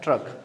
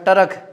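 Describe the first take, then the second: First: The t and r join with no vowel between. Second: A short vowel separates the t and r. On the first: The speaker calls it right. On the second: The speaker calls it wrong.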